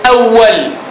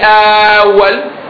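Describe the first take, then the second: First: The first vowel is short. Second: The first vowel is drawn out long. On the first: The speaker calls it right. "it's a short vowel, like awwal" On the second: The speaker calls it wrong. "You don't say awwal"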